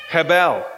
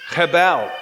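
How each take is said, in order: The two takes are said the same way.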